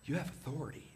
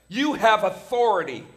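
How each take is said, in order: First: It is said softly and gently. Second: It is said loudly and forcefully.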